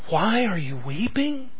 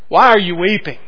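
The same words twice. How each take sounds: First: It is asked in a gentle, caring tone. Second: It is asked in a knowing, rhetorical tone. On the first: The asker cares about the grief. "Was this asked out of deep concern?" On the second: The asker implies there is no reason to weep. "a rhetorical question?"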